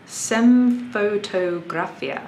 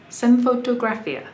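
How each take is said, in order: First: Slowly sounding out "Semfotografia" syllable by syllable; sounding out a name. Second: "Semfotografia" said again smoothly at normal speed, pitched higher; now say "Semfotografia" fluently, with confidence; name said smoothly. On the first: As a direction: read "Semfotografia" carefully and slowly, like an unfamiliar username. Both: Shown as a demonstration. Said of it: "this question is funny".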